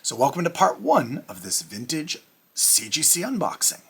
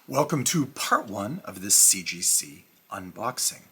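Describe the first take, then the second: First: It sounds like an excited game show host. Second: It sounds plain, not like a show host.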